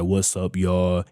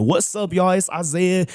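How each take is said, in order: First: Bland, deep. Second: High, animated intro with life in it; lively video greeting. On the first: Vlogger mimicking his early videos, bland deep greeting. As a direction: drop the voice deep and lifeless. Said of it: "my voice will be all deep". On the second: Vlogger showing his improved video intro, lively greeting. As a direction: greet the viewers in a much higher, upbeat voice. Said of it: "I remember just getting better. Now that when I do my videos". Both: Retold or imitated.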